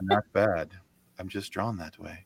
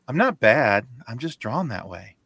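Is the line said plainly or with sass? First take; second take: plainly; sassy. First: It is said plainly, without sass. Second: It is said with a little sass.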